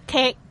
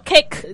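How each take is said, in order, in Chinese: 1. 词尾的 k 是截住的，不爆破。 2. 词尾的 k 会清楚地爆破释放。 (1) "你只可以读kick 咁样噶咋" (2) "你唔可以读kick"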